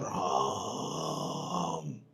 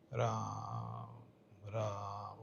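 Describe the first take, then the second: First: It is called out loudly, as if far away. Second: It is said softly, in a normal voice.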